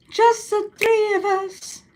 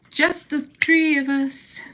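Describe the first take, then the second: First: Very high, slow sing-song. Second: Slow drawn-out spooky voice; mock spooky. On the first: Pretend. Teasing her two roommates, high slow sing-song. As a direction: float it up high and draw it out. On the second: Teasing her two roommates, slow mock spooky voice. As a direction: stretch it out like a campfire ghost story. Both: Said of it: "repeats the line playfully".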